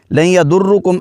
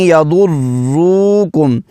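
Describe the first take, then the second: First: يَضُرُّكُمْ with the رّ not held; لَن يَضُرُّكُمْ said quickly, the doubled رّ skipped over; wrong reading. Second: يَضُرُّكُمْ slowly with the رّ held firmly; firm doubled ra. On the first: Teacher showing students the wrong way, quick and unheld. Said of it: "ایسے نہیں پڑھنا". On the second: Teacher showing students the correct way, slow with a firm رّ. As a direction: lean on the رّ of يَضُرُّكُمْ, slow and steady. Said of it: "جماؤ کے ساتھ". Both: Shown as a demonstration.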